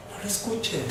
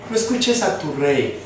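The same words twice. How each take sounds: First: Very quiet, almost under the breath; softly planted enemy message; hushed insinuation. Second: Said in the usual way. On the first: Acted. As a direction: drop right down to a hush, as the enemy.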